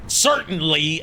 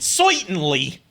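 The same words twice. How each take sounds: First: It is said in a plain, standard pronunciation. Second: It is said in a put-on character accent. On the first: "pronouncing them as written" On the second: "going like"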